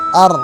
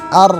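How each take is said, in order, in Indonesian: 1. Bibir tetap netral saat bunyi r. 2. Bibir tetap netral saat bunyi r.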